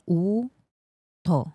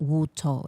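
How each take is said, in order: First: The word starts with a plain 'oo' vowel. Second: The word starts with a 'w' sound. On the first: The speaker calls it right. "So this is like U to" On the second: The speaker calls it wrong. "not even Wu to, like I've been saying"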